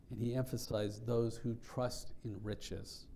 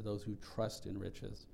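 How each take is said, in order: First: Said in the usual way. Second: "those" stressed, phrase said slow and deliberate; slow, weighted stress on "those"; emphasis on those. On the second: Shown as a demonstration. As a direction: lean on "those who trust in riches" slowly. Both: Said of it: "That was the emphasis there".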